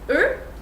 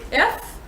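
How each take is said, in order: First: The word ends on a vowel, without f. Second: The word ends with an audible f sound. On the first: It refers to several eggs. "in plural it's er" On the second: It refers to one egg. "in the singular it's F"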